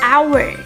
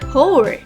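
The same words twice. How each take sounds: First: The word begins with no h sound. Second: The word begins with an audible h sound. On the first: The speaker calls it right. "The correct pronunciation is hour" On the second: The speaker calls it wrong. "trying to pronounce the H sound like hour"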